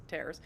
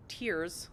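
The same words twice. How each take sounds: First: "tears" said to rhyme with "bears"; tears as in rips. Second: Said in the usual way. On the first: Shown as a demonstration. Player jokingly misreads a word, "tears" as "tairs". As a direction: say "tears" like "tares". Reads word two ways.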